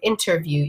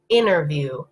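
First: The T after the N is clearly pronounced. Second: The T after the N is dropped. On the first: "if I pronounce everything in it, it sounds like interview. ... you can hear the N and the T at the start" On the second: "if I'm speaking naturally, what I would say probably actually is interview. ... the T has really disappeared"

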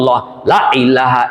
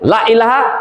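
First: The vowel in 'La' is drawn out long. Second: The vowel in 'La' is cut short. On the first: It denies all gods but the one. The speaker calls it right. "মানে আল্লাহ এখানে টান দিতে বলেছেন" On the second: It implies there are many gods. The speaker calls it wrong. "Short করে"

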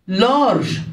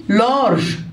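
The two takes are said the same way.

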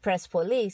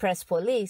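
First: The name is said the Persian way. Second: The same.

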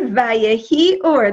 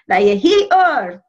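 First: It is said in the speaker's ordinary accent. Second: It is said in a put-on Russian-Yiddish accent.

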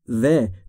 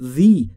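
First: The word ends in a short uh vowel. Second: The word ends in a long ee vowel. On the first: The speaker calls it wrong. "به جای the" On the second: The speaker calls it right. "اگر بعد از the حرف صدادار گفتاری بیاد ... باید بگیم the"

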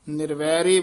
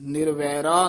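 First: The word ends in an 'e' vowel. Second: The word ends in an 'aa' vowel. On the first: The speaker calls it wrong. "ਕਈ ਨਿਰਵੈਰੇ ਬੋਲ ਜਾਂਦੇ ਹਨ" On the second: The speaker calls it right. "ਇਹ ਪਾਠ ਇਸੇ ਤਰ੍ਹਾਂ ਹੀ ਉਚਾਰਨ ਕਰਨਾ"

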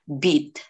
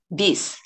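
First: The word ends with a T sound. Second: The word ends with an S sound. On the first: The speaker calls it right. "nagiging E sound siya or D, bit" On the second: The speaker calls it wrong. "It's not bis, guys"

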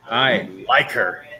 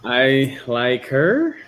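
First: It sounds excited, like an exclamation. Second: It sounds doubtful, like a question.

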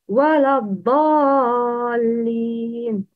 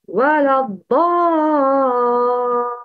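First: The long vowel is cut short. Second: The long vowel is held for six beats. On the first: The speaker calls it wrong. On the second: The speaker calls it right.

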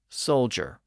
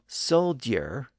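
First: The middle is said as a single J sound. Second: The middle is said as a D followed by a Y sound. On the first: "to soldier" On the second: "from soldier"

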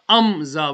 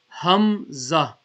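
First: The word begins directly with a vowel. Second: The word begins with a breathy h sound. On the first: The speaker calls it wrong. "Some people read it as amza" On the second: The speaker calls it right. "It's not amza, hamza"

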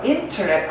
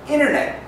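First: The middle T is clearly pronounced. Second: The middle T is dropped after N. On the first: The speaker calls it wrong. "하지 않고" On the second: The speaker calls it right. "N 때문에 T 발음 없어요"

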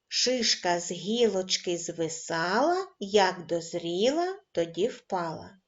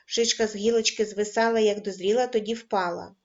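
First: The rhyme is read at a slow pace. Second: The rhyme is read at a fast pace. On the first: "Починаємо читати кожен раз, пришвидшуючи темп" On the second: "кожен раз, пришвидшуючи темп"

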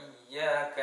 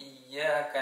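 The two takes are said the same way.

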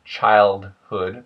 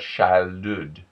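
First: The H sound is pronounced. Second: The H sound is dropped. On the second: "the H disappears"

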